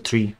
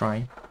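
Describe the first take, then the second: First: The word is said with an 'ee' vowel. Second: The word is said with an 'eye' vowel. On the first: The speaker calls it wrong. "It's not a tree, right?" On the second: The speaker calls it right. "It should be a try"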